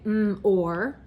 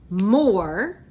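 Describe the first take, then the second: First: "mm, or" separated sounds; split sounds. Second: Said in the usual way. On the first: Shown as a demonstration. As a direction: hold "mm" then "or". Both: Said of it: "Now let's say".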